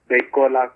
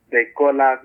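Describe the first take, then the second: No difference in how they are said.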